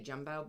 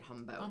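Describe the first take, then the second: First: The name begins with a J sound. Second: The name begins with an H sound. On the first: This is how the name is spelled. "with a J" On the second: This is how the locals said the name. "but they called it Humbo"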